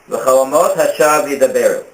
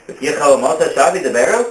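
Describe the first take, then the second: First: It is said as a plain statement. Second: It is said as a question. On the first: Dreams mean nothing. "Dreams speak lies" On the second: Surely dreams must be true. "it's worded in a question"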